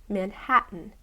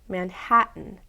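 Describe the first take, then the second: No difference in how they are said.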